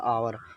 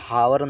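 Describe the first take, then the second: First: The word begins with a vowel sound. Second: The word begins with an h sound. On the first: The speaker calls it right. "आवर पढ़ा जाएगा" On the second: The speaker calls it wrong. "इसे हावर नहीं पढ़ा जाएगा"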